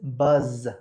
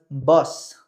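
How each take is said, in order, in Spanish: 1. El sonido final es una z sonora que vibra. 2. El sonido final es una s sorda que silba. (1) "es buzz, buzz, zzz, zzz, ¿ok? Tiene que vibrar la garganta" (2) "Ahí no es bus, bus, porque es autobús"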